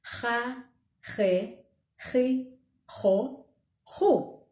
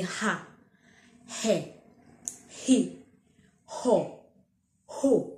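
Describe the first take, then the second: First: "Ha, he, he, ho, ho" with a rough, throaty h scraped at the back of the throat; "Ha" "he" "ho" each opened with a harsh throat fricative; Ndebele guttural h. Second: "ha, he, he, ho, ho" each with a plain breathy English h; just breathe out the h gently, no rasp; simplified exhaled h. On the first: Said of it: "Do this after me". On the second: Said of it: "Just exhale out". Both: Shown as a demonstration.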